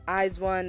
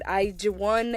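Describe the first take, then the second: First: The name is said a non-Korean way. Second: The name is said the Korean way. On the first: "and then there's" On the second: "there's the Korean pronunciations"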